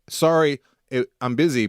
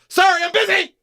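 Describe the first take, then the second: First: It is said flatly with a plain final fall. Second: It is said emphatically, like an exclamation. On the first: A neutral, matter-of-fact refusal. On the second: A rude, aggressive refusal. "I read it with the exclamation mark"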